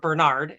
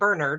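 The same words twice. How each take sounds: First: The name is said in an American way. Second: The name is said in a non-American way.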